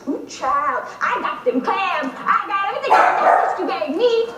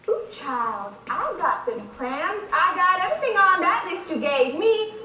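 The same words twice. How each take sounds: First: Sassier, louder audition take, building; hammed-up sass, growing in force; bigger caricature read. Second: A touch of sass, held back; tentative, understated sassy take; half-hearted caricature for the director; sassy audition read. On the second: Acted.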